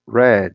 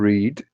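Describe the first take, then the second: First: The word sounds like the colour 'red'. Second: The word does not sound like 'red'. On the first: The action happened in the past. "no passado, read. Parecido lá com a pronúncia da cor vermelha" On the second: The action happens in the present. "no presente, to read"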